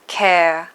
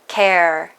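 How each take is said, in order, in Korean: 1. 마지막 r이 빠지고 슈와로 끝나요. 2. 마지막 r 소리가 분명하게 발음돼요. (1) "영국이나 호주에서는 care, air 이런 식으로 끝부분 자음까지 날려버리고 슈와를 넣어서 발음합니다" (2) "미국에서는 care, air 이런 식으로 발음하지만"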